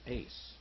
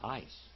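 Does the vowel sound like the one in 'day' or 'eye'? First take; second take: day; eye. First: The vowel sounds like the one in 'day'. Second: The vowel sounds like the one in 'eye'. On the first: The speaker calls it right. "But it's not ice, it's ace" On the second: The speaker calls it wrong. "They would pronounce it ice"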